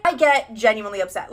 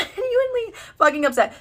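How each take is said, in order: First: Said in the usual way. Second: "genuinely" drawn way out, pitched up; long, high, dramatic stress on "genuinely"; emphatic repeat. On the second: Real, not acted. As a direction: stretch the first syllable of "genuinely".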